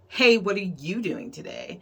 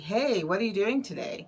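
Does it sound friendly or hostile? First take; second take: hostile; friendly. First: It sounds harsh and attacking. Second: It sounds casual and friendly.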